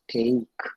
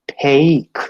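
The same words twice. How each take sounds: First: The t is released without a puff of air. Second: The t is released with a puff of air. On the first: "phonemically it is take" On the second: "phonetically it is take"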